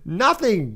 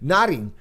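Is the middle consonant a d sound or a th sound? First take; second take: th sound; d sound. First: The middle consonant is a th sound. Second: The middle consonant is a d sound. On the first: "I can't even say nothing anymore" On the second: "I'm so used to saying nodding"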